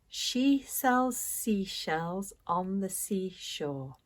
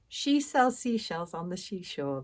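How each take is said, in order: First: It is said at a slower, careful pace. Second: It is said at a fast, rushed pace.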